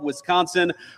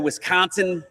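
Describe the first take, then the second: First: It is said in a general American accent. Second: It is said in a local Wisconsin accent.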